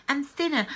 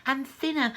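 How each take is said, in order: Both takes have the same delivery.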